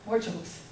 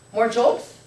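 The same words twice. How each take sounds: First: "More jokes." softer, with a falling tune; settled answer. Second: "More jokes?" asked with a rising tune; questioning rise. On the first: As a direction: drop "More jokes." down into a quiet statement. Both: Acted. Wondering aloud, then answering herself.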